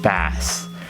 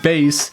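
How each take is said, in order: First: The vowel sounds like the one in 'gas'. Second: The vowel sounds like the one in 'face'. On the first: It names the fish. The speaker calls it wrong. "I said bass. And to be fair, I went fishing with the speaker" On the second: It names the low sound from a speaker. The speaker calls it right. "instead of saying bass"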